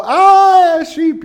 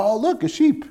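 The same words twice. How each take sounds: First: High shrieking fake fright at a sheep; hammed-up scream, much higher and louder; mock terror. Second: Higher, delighted cooing; charmed. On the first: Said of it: "you don't go". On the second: Pretend. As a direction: point it out like a cute sight. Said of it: "You go".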